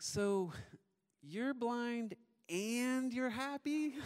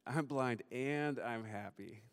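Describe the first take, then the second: First: Put-on very high, slow toddler voice, drawn out to a question; puzzled little daughter. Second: Slow, measured answer in a natural pitch; patient dad. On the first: Two-year-old checking what Dad told her, high slow puzzled imitation. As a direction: mimic a small child slowly putting it together. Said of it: "she's really thoughtful and reflective". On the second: Retold or imitated. Dad confirming to his little daughter, slow and deliberate. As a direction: spell it out slowly for a small child. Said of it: "And I said".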